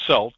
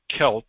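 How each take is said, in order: First: The word begins with a soft S sound. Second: The word begins with a hard K sound. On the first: The speaker calls it wrong. "some people pronounce it Celt" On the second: The speaker calls it right. "but it's actually Celt, even though it's spelled with a C"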